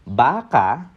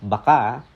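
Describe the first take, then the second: First: It uses the pronunciation that means cow. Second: It uses the pronunciation that means maybe. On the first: The word refers to a cow. "baka ang tinutukoy niya ay animal or yung cow" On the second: The word means maybe. "pag ang pronunciation ay baka, it means maybe"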